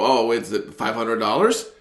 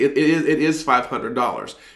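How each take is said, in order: First: It sounds unsure and tentative, like a question. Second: It sounds firm and committed, like a statement.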